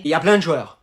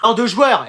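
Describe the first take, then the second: First: Said in the usual way. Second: Firm fall on "joueurs"; corrected "joueurs". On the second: Shown as a demonstration. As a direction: repeat "joueurs" firmly to grandma. ("joueurs" appuyé) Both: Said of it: "De loueurs?".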